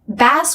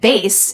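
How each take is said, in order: First: The vowel is short, as in cat. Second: The vowel is a diphthong, as in day. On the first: It names a kind of fish. "Bass with the a vowel is a kind of fish" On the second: It names an instrument or low voice. "change the pronunciation to the a diphthong"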